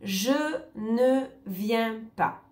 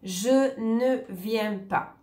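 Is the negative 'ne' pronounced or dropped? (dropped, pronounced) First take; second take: pronounced; pronounced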